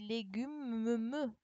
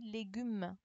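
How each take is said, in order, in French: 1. Le son « m » est double et tenu longtemps. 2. Le son « m » est simple et court. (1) "J'ai pas dit légumes" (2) "J'ai dit légumes. On n'entend pas les deux M"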